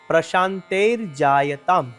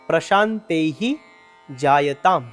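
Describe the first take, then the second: First: The words are joined; the first ends in r. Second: The words are separate; the first ends in h. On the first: The words are joined into one phrase. "આખો શબ્દ ભેગો થઈ" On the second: The words are read separately. "એમાં બે શબ્દ છૂટા છૂટા છે"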